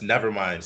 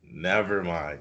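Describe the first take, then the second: First: The phrase is said quickly and flatly. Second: The phrase is said slowly and drawn out. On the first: The speaker calls it wrong. "Not just never mind, start again" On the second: The speaker calls it right. "like it really drag it out"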